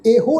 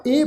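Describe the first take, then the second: First: ਇਹੋ as "e-ho"; ਇਹੋ in two syllables; wrong pronunciation. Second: ਇਹ as one syllable, "eh"; ਇਹ, just the long e; correct pronunciation. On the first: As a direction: say ਇਹੋ with a sounded o at the end. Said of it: "ਇਹਨੂੰ ਇਹੋ ਨਹੀਂ ਪੜ੍ਹਨਾ". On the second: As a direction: say ਇਹ with no o at the end. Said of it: "ਪੜ੍ਹਨਾ ਹੈ". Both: Shown as a demonstration.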